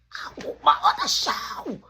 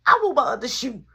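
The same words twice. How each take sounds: First: Very high, mock-tantrum wail; retold wailing demand. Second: Loud, high demand; retold demand. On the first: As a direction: stretch it up into a high whine. Repeats the demand, more worked up. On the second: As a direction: demand it with force. Demanding his lost shoe back.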